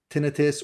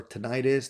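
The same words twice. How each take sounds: First: Tinnitus said TIN-ih-tus; first-syllable stress. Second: Tinnitus said tih-NYE-tus; second-syllable stress. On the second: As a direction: stress the middle of tinnitus, rhyming it with "night us". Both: Shown as a demonstration. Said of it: "depending on how you like to pronounce it".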